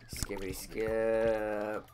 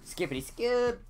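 First: It is said flatly, without enthusiasm. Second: It is said with lively enthusiasm.

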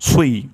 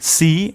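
First: The s sound is heavy, with rounded lips. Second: The s sound is light and thin. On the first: The speaker calls it right. "প্রথম ঠোঁট গোল হবে, তারপর ঠোঁটটি ছড়িয়ে যাবে" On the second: The speaker calls it wrong. "সি ভুল উচ্চারণ"

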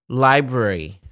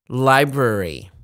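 No difference in how they are said.

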